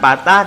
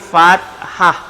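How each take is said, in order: First: The word begins with a p sound. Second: The word begins with an f sound. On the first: The speaker calls it wrong. "bukan patah" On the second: The speaker calls it right. "tapi fathah"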